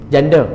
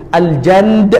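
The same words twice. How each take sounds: First: Said in the usual way. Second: Malay "Janda" dressed up as Arabic "Al-Jand"; playful fake-Arabic flourish on "Al-Jand"; mock Arabic. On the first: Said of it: "Saya saja je buat macam tu".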